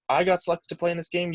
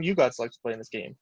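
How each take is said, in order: First: I pitched high against the rest; stress on I. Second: Quicker line leaning on You; stress on YOU. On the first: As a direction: lean on the word I, contrasting yourself. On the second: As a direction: point it back with emphasis on You. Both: Retold or imitated. Teammate's retold pep talk, contrast.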